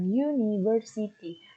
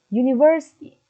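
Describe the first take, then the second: First: Every syllable is said separately with equal weight. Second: The syllable ver is clearer, longer and stressed. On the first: The speaker calls it wrong. "Bukan dengan university. Tidak seperti itu kalian melafalkannya" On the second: The speaker calls it right. "Ver kalian lafalkan dengan lebih jelas, lebih lama, penekanan yang baik"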